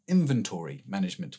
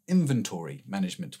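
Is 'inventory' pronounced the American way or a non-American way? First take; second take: American; American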